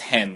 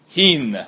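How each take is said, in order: First: The vowel is a mid 'eh' sound. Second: The vowel is a high 'ee' sound. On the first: This is how the word is read nowadays. "when we read Mishneic Hebrew, we pronounce it as hen" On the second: This is the original Mishnaic pronunciation. "In the times of the Mishnah, is actually pronounced hin"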